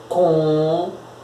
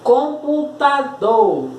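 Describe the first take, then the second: First: "Computador" broken by long pauses, COM... PU... TA... DOR; syllable by syllable. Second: "Computador" said slowly and higher, COM-PU-TA-DOR joined up; slow enunciation. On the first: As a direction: hold each syllable of "Computador" and wait before the next. Separa a palavra em sílabas. ("Computador" sílaba por sílaba, com pausas longas) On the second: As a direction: enunciate every syllable of "Computador" without long breaks. Palavra dita antes de separar. ("Computador" devagar, bem articulado) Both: Shown as a demonstration.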